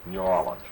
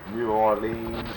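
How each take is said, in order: First: The name is said in the speaker's own way. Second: The name is said the way many people say it. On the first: This is how the speaker personally says it. "I want the way you say it" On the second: This is how many other people say it. "A lot of folks say New Orleans"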